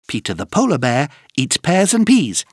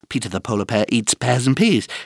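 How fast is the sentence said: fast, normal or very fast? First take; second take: fast; very fast. First: The sentence is said at a fast pace. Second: The sentence is said at a very fast pace. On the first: "plus vite!" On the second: "encore plus vite!"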